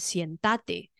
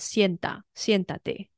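First: The stress is on the second syllable. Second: The stress is on the first syllable. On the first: The speaker calls it wrong. "它重音就会落在倒数第二音节" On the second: The speaker calls it right. "叫人家坐下是念作现哒得"

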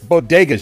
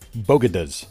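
First: The consonants are in order, giving 'bodegas'. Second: The middle consonants are swapped, giving 'bogadas'. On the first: The speaker calls it right. "It's bodegas" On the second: The speaker calls it wrong. "did you hear her mispronounce bodegas?"

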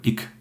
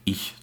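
First: It is said in the Berlin dialect form. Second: It is said in the standard German form. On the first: This is a feature of Berlin speech. "Zum Beispiel ich statt ich zu sagen, das machen wir nicht" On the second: This is the standard form. "statt ich"

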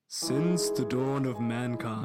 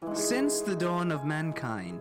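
First: It is said in a deep voice. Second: It is said in a normal voice.

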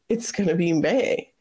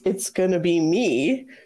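First: The last word ends with an 'ay' vowel. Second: The last word ends with an 'ee' vowel. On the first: The speaker calls it wrong. "they say it's going to be May" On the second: The speaker calls it right. "in the song that should be"

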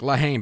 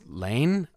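First: The title is said as two separate syllables. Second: The title is run together as one syllable. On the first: The speaker calls it wrong. "it's very American and blunt of me to be like La Haine" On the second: The speaker calls it right. "but I think it's Lane"

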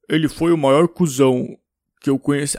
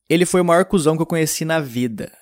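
First: It is said in a put-on deep voice. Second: It is said in the speaker's normal voice.

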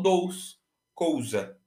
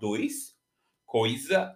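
First: It is said with the 'ou' vowel. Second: It is said with the 'oi' vowel.

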